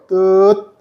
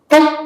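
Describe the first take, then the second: First: The vowel is held slightly longer before closing. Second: The syllable is cut off very short. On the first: "뜨를 하고 ... 한 영 점 몇 초 후에 시옷 받침을 은근히 넣어보면" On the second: "바로 시옷 받침을 바로 해주면 ... 엄청 짧은 스타카토"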